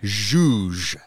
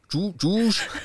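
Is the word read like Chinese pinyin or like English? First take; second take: English; Chinese pinyin. First: It is read as one short English word. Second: It is read like the Chinese pinyin syllables. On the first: The speaker calls it right. "How do we pronounce it?" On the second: The speaker calls it wrong. "we're not pronouncing this word like zhuzh"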